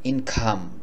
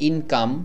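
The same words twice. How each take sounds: First: The k is breathy, with a puff of air. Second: The k is a plain, unaspirated sound. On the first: "সিটাকে খর মতো করে উচ্চারণ করেন" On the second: "যেমন আমরা বলি"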